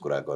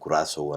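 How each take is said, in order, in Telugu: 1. మధ్య హల్లు k ధ్వని. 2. మధ్య హల్లు s ధ్వని. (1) "ఇండియన్స్ కురాకో అని అనుకోవచ్చు" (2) "కురాసో అని ప్రొనౌన్స్ చేశారు"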